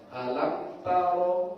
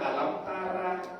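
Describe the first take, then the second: First: The r is pronounced round and heavy. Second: The r is pronounced thin and light. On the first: The speaker calls it right. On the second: The speaker calls it wrong. "jangan alam tara"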